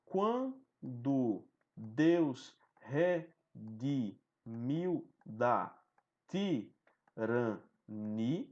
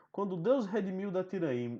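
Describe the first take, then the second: First: Very slow, each poetic syllable drawn out; slow scanning read of the verse; syllable scansion. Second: Verse read at natural pace, not scanned; plain recited verse; normal poem reading. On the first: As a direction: stretch every syllable to count the meter. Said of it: "Fazendo aqui a escansão". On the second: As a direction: read the line flowing like a poem. Reads the sonnet aloud. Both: Shown as a demonstration.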